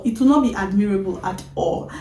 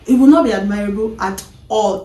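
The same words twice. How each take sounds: First: Said in the usual way. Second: Not punched, louder; not admirable at all, leaned on; stress on not. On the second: Real, not acted. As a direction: hit the word not hard.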